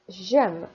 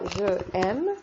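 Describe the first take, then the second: First: The j sound joins directly onto aime. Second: Je is said as a separate syllable before aime. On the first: The speaker calls it right. "je fais J apostrophe A I N E" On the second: The speaker calls it wrong. "je ne dis pas je aime"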